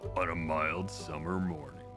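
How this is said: It is said in a movie-trailer voice.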